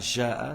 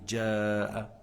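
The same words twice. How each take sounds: First: It begins with a soft French-like 'zh' sound. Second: It begins with a 'dj' sound, a d before. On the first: The speaker calls it wrong. "c'est pas جاء" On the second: The speaker calls it right. "c'est جاء ... C'est comme s'il y en a un dal avant"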